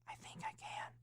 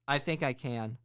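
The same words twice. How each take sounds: First: It is whispered very softly. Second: It is said at a moderate volume. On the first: "the first one you're going to whisper" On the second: "the second one you're going to say a little louder"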